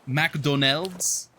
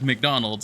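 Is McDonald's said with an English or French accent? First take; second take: French; English. First: It is said with a French accent. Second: It is said with an English accent. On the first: "it's McDonald's or something like that" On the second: "instead of McDonald's"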